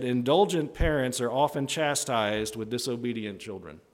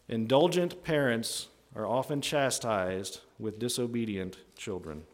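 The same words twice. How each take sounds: First: Said in the usual way. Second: Slow it down phrase by phrase; measured delivery with pauses to let it sink in; spaced out slowly for emphasis; slow, deliberate repeat. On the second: Real, not acted.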